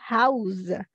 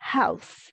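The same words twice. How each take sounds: First: The consonant is a voiced z sound. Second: The consonant is a voiceless s sound. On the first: It is the verb meaning to furnish or shelter. "se a gente pronunciar como Z aqui" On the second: It names a building where people live. "Quando a gente tem S em substantivos, a gente não vai falar com som de Z"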